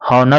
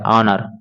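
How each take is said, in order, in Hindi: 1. यह शब्द एच की आवाज़ से शुरू होता है। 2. यह शब्द स्वर की आवाज़ से शुरू होता है। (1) "अगर देखा जाए तो हॉनर होगा" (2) "इसका उच्चारण सही होगा ऑनर"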